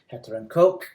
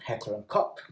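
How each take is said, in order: First: The name is pronounced the English way. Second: The name is pronounced the German way. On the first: "Perhaps if you're English" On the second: "If you are German"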